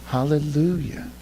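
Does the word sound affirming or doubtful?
affirming. The word sounds firm and affirming. The speaker praises in spite of the darkness. "That's how it's supposed to sound"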